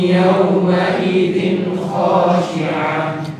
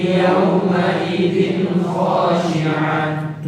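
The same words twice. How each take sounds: No difference in how they are said.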